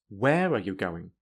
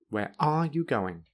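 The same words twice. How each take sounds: First: The strongest stress falls on the word where. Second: The strongest stress falls on the word are. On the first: "add strong stress to where"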